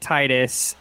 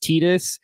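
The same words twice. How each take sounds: First: The first syllable sounds like 'tide'. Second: The first syllable does not sound like 'tide'. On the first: The name is linked to water and tides. "I always said it Titus in my brain, like, because it's like the tide" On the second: This is the form the makers officially gave. "Apparently Square Enix has said officially it's Titus"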